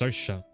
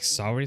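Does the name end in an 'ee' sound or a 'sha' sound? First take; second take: sha; ee. First: The name ends with a sha sound. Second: The name is said like the word sorry. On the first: The speaker calls it right. "It's pronounced Saoirse" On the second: The speaker calls it wrong. "So far I was saying like sorry"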